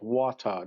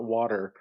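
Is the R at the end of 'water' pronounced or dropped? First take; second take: dropped; pronounced. First: The final R sound is dropped. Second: The final R sound is pronounced. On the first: "their R's. Like, you know, it's like water" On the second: "not water"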